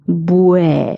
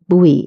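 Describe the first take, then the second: First: The syllable ends in an 'e' vowel sound. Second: The syllable ends in an 'ee' vowel sound. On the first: The speaker calls it right. "if we add an E, it becomes bue" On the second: The speaker calls it wrong. "Many people have the tendency of pronouncing B U E as bui"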